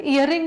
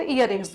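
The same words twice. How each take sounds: First: Said in the usual way. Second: "ईयररिंग्स" with a final s, pitched lower; plural ending sounded. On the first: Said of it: "नहीं बोलते". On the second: Shown as a demonstration. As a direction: answer with "ईयररिंग्स", s on the end. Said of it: "ईयररिंग नहीं बोलते".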